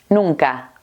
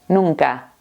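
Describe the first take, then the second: Both takes have the same delivery.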